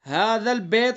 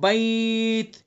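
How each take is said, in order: First: The vowel in 'bait' is a flat 'eh' sound. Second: The vowel in 'bait' is an 'ay' glide. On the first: The speaker calls it wrong. "इसको भी बैत नहीं पढ़ना है" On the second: The speaker calls it right. "मारूफ पढ़ेंगे"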